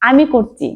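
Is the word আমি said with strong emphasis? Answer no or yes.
no. Both words are said plainly, without special emphasis. A plain statement of what I am doing.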